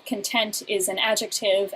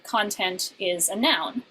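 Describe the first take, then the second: First: "content" said con-TENT; stress on second syllable. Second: "content" said CON-tent; stress on first syllable. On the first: Lecturer explaining the adjective, "content" stressed on TENT. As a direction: put the weight of "content" on TENT. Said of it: "with the stress on the second syllable". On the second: Lecturer explaining the noun, "content" stressed on CON. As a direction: put the weight of "content" on CON. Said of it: "with the stress on the first syllable". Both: Shown as a demonstration.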